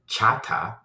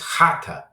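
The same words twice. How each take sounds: First: It begins with a plain ch sound. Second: It begins with a harsh, throaty h sound. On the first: The speaker calls it wrong. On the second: The speaker calls it right. "It's the hard H. It's"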